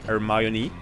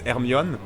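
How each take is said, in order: First: The name imitates the English speakers' pronunciation. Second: The name is said in the speaker's own reading pronunciation. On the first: This is how English speakers say it. "it sounds like they say Hermione" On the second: This is how the speaker hears it when reading. "to me, she's Hermione"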